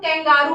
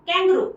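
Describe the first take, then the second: First: The middle syllable has a long 'aa' vowel. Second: The middle syllable has a short, reduced vowel. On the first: The speaker calls it wrong. "इसको बहुत लोग कैंगारू pronounce करते हैं" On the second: The speaker calls it right. "लेकिन इसको कैंगरू बोलते हैं"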